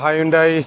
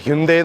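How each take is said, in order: First: It starts with 'high' and ends in 'dye'. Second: It starts with 'hin' and ends in 'day'. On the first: This is how local people usually say it. The speaker calls it wrong. "നമ്മുടെ ആൾക്കാർ ഹൈൻഡായി എന്നാണ് പറയുക" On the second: This is the proper way to say it. The speaker calls it right. "ഹൈൻഡായി അല്ല ഹിൻഡേ എന്നാണ് പറയുന്നത്"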